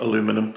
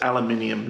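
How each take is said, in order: First: The word is said without the extra syllable. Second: The word is said with an extra 'ee' syllable. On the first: This is the form the speaker prefers. The speaker calls it wrong. "not aluminum, as much as I prefer to say aluminum" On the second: This is the local form where the speaker is. The speaker calls it right. "It's aluminium"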